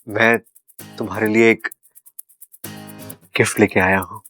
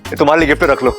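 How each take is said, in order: First: It is said timidly and fearfully. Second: It is said boldly and confidently.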